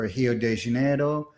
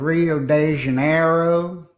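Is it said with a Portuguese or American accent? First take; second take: Portuguese; American. First: It is said with a Brazilian Portuguese accent. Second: It is said with an American English accent.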